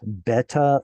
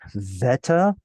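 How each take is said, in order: First: The word begins with a B sound. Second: The word begins with a V sound. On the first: This is the older pronunciation. "is the Greek B sound preserving an original B sound" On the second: This is the modern Greek pronunciation. "actually veta like it is in modern Greek"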